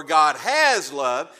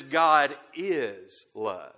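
First: "has" punched loud and drawn out; stress on HAS. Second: "is" held long and set apart; stress on IS. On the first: Preacher contrasting what the Bible doesn't say, stress on "has". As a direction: hit the word "has" hard. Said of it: "it doesn't say that". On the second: Preacher correcting to what the Bible says, stress on "is". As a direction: stretch the word "is" slowly. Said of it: "I emphasize the word "is". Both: Shown as a demonstration.

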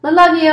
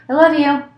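First: High, louder I love you; hammed-up doting parent; louder mock gushing. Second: High, gushing I love you; lightly mocking the doting partner; mock sweet parent. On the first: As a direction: coo it again even bigger. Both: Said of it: "You'll tell them eight or ten times a day".

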